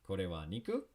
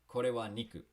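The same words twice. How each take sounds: First: The voice rises at the end. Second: The voice stays level or falls at the end. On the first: It asks whether this is meat. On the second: It states that this is meat.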